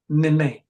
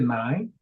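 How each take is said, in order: First: The name is said as two syllables, nay-nay. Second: The name is said like the number nine. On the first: Someone misread the spelling of the name. The speaker calls it wrong. "they don't pronounce it as nine at first. They'd be like" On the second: The name is said as its owner says it. The speaker calls it right. "like the number"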